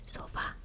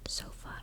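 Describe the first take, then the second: First: The stress falls on the final syllable. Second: The stress falls before the final syllable. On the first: The speaker calls it right. "I'm enunciating and pronouncing the A more" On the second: The speaker calls it wrong. "it's not sofa"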